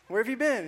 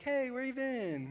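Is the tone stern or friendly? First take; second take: stern; friendly. First: It sounds like a stern, scolding parent. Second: It sounds like a casual, friendly greeting.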